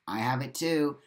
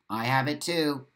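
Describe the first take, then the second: No difference in how they are said.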